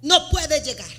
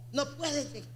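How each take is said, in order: First: Said in the usual way. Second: A soft, sinking echo of the line; softer echo. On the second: Real, not acted. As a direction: drop to a hushed repeat. Repeated phrase, second fades.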